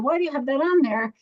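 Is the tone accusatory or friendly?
friendly. The question sounds calm and friendly. The speaker is curious, not judging. The speaker calls it right. "I'm going to say"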